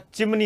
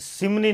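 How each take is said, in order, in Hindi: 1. यह शब्द 'ch' ध्वनि से शुरू होता है। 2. यह शब्द 's' ध्वनि से शुरू होता है। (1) "चिमनी होता है" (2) "अरे सिमनी नहीं होता"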